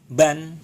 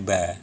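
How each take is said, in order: First: The syllable ends with an n sound. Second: The syllable ends with an open vowel. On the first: The speaker calls it wrong. "Jadi tidak dibaca eh, ban" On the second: The speaker calls it right. "tetapi dibacanya ba"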